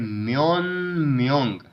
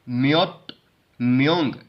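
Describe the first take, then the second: First: The first word ends in a nasal sound. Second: The first word ends in a stop sound. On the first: The speaker calls it right. "हम पढ़ेंगे म्योन म्योंग" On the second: The speaker calls it wrong. "इसको पढ़ने की बजाय"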